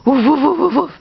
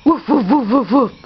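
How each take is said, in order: First: Higher, louder excited barks; bigger woof. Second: Put-on bouncy barking woofs for a toddler; playful woof. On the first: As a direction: push the woofs up and out. Repeats dog sound bigger. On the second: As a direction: bark it out like a puppy. Showing baby what doggy says. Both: Shown as a demonstration.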